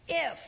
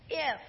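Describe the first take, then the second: First: IF punched, louder and drawn out; stress on IF. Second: IF said firmly and louder; stress on IF. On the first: Preacher reading the devil's words, stressing "If". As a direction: lean hard on "If". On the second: Preacher repeating the devil's "If" with emphasis. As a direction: hit the word "If". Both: Shown as a demonstration. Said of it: "I emphasized that word".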